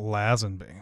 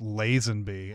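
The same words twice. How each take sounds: First: The first vowel is a short A, like lazz. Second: The first vowel is a long A, like lays. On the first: The speaker calls it wrong. "and not" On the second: The speaker calls it right. "his name is pronounced Lazenby"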